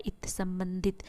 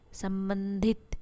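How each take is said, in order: First: संबंधित whispered softly, no voice; teacher whispers संबंधित to the class; whispered answer. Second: संबंधित drawn out syllable by syllable, very slow; slow syllable demo. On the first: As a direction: breathe संबंधित like a secret answer. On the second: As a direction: stretch संबंधित out slowly so each part is heard. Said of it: "ध्यान से अगर उच्चारण कीजिएगा आप". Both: Shown as a demonstration.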